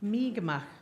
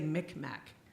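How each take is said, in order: First: It is said as 'Mi'kmaq'. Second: It is said as 'Micmac'. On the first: The speaker calls it right. "it's really pronounced Mi'kmaq" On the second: The speaker calls it wrong. "taught us to say Micmac"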